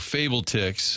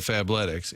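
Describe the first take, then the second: First: It is split into 'fable' plus 'ticks'. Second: It is said as one word, 'fab-letics'. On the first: It is a deliberate mispronunciation. "I meant like in the mispronouncing game" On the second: It is the usual pronunciation. "instead of"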